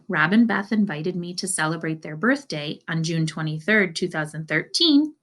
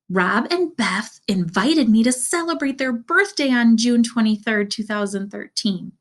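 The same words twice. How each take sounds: First: It is said in a plain, neutral voice. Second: It is said in an excited voice. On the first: It is simply telling information. "if I just said" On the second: There is emotion behind it. "if I read it with an excited voice"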